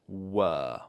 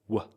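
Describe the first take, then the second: First: The word has a full, strong vowel. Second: The word is reduced to a weak, short sound. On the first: "Strong one is were" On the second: "the weak form is w"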